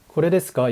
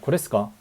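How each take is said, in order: First: Every syllable, including 'de', is pronounced in full. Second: The 'de' syllable is dropped, giving a clipped form. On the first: The standard textbook form. "이게 아니라" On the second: Casual speech typical of young men. "특히 남자애들 말하는 거"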